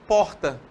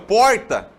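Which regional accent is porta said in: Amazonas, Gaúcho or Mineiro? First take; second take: Amazonas; Mineiro. First: It is said in an Amazonas accent. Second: It is said in a Minas Gerais accent. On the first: "nós, aqui no Amazonas, falamos porta" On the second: "um mineirinho meio, meio perdido e fala porta"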